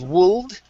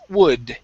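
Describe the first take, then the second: First: The L sound is pronounced in the word. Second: The L sound is silent in the word. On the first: The speaker calls it wrong. "Instead of wold" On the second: The speaker calls it right. "The L in this word is silent"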